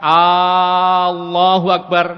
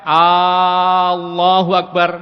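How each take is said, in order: First: The opening 'A' sound is held long. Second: The same.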